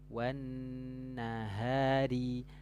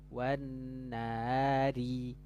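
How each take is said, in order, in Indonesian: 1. Bunyi H tenggorokan yang berdesah terdengar jelas. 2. Bunyi H tenggorokan yang berdesah hilang. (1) "Yang penting suaranya satu, dia tidak samar" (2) "Nggak ada suara haknya, itu tidak jelas"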